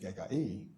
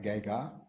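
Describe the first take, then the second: First: The word ends with an extra final vowel. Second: The word ends without the extra final vowel. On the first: This is the older, complete form of the word. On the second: This is the worn-down form people use today.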